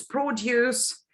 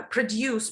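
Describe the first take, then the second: First: PRODUCE with the weight on PRO, a full vowel up front; stress on first syllable. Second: PRODUCE with the weight on DUCE, the first syllable short and weak; stress on second syllable. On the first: Teacher showing trainees a word pair, produce stressed on PRO. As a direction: say produce as a noun, PROduce. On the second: Teacher showing trainees a word pair, produce stressed on DUCE. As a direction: say produce as a verb, proDUCE. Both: Shown as a demonstration. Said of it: "certain words like".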